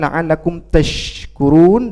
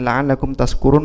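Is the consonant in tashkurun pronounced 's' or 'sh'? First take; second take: sh; s. First: The consonant is pronounced as 'sh'. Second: The consonant is pronounced as 's'. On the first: May you be grateful. The speaker calls it right. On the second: May you be drunk. The speaker calls it wrong.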